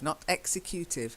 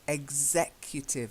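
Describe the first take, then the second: First: The first vowel is a different sound. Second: The first vowel is an 'eh' sound. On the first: The speaker calls it wrong. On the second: The speaker calls it right.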